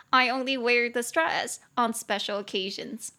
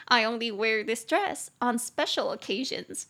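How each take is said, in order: First: Said in the usual way. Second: Slow, careful repeat for learners; unhurried teacher's demonstration at a slow pace; slow model sentence. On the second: Shown as a demonstration. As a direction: take the English sentence slowly, word by word.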